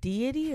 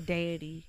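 First: The first syllable sounds like dee. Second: The first syllable sounds like day. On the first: The speaker calls it right. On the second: The speaker calls it wrong.

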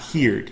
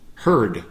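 First: The vowel sounds like the vowel in 'hear'. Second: The vowel sounds like the vowel in 'her'. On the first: The speaker calls it wrong. "Not heard, even though it looks like heard" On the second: The speaker calls it right. "in the past, it's pronounced heard"

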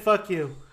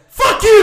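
First: It is said plainly, without special force. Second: It is said forcefully, imitating Mister Lou.

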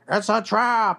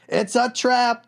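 First: It is said in the fish-like general's voice. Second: It is said in his own normal voice.

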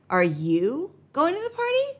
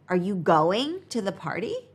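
First: The question sounds surprised and disbelieving. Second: The question sounds plain and neutral. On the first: The speaker can't believe the person would go to that party. "Might imply surprise or disbelief" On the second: The speaker is simply asking about the person's plans. "Is a simple question asking about the person's plans"

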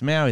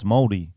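First: The word is said with an anglicized pronunciation. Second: The word is said with the Maori pronunciation. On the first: The speaker calls it wrong. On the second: The speaker calls it right. "no, it's Maldi"

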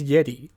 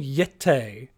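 First: The word is said in an ordinary way. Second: The word is said in an exaggerated, showy way. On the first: "no one says yeti" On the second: "It's all yete"

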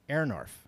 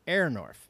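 First: The first syllable sounds like 'air'. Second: The same.

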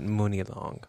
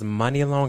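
First: The first vowel sounds like 'oo'. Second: The first vowel sounds like 'uh'. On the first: The speaker calls it wrong. "and not Mooney Long" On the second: The speaker calls it right. "her name was Money Long"

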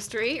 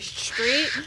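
First: The word begins with a plain s sound. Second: The word begins with an sh sound.

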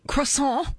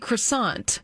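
First: It is said with a French-style pronunciation. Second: It is said with an American English pronunciation. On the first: This is how it is said outside the United States. "we don't say croissant" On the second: This is how it is said in the United States. "We say croissant in the United States"

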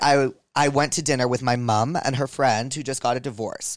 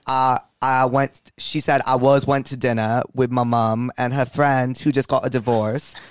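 First: It is read in the speaker's normal accent. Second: It is read in a put-on British accent.

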